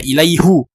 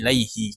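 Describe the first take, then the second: First: The word ends with a 'hu' sound. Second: The word ends with a 'hi' sound. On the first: The speaker calls it wrong. "dia tidak dibaca ilaihu" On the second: The speaker calls it right. "tetapi dia dibaca"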